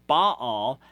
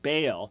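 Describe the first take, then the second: First: The word has its original Hebrew pronunciation. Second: The word has its usual English pronunciation. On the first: "is the Hebrew Baal" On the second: "You normally pronounce it Baal"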